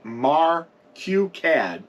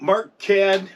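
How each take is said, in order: First: It is said as three parts, Mar Q Cad. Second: It is said as two syllables, Mark Cad. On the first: The speaker calls it right. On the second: The speaker calls it wrong.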